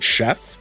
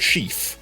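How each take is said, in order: First: The word has a short 'eh' vowel. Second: The word has a long 'ee' vowel. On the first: The speaker calls it wrong. "a lot of people say chef. That's just not right" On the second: The speaker calls it right. "I even know how to pronounce it correctly"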